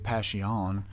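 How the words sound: It is pronounced the Spanish way. "they say passion"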